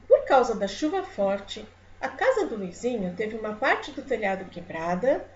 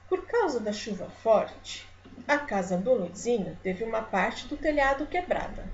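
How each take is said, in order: First: The voice ends as if more will follow. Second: The voice ends as if the idea is finished.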